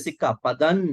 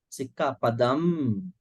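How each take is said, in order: First: The word ends with an N sound. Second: The word ends with an M sound. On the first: The speaker calls it wrong. "You don't say Sikka Padan" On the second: The speaker calls it right. "M sound"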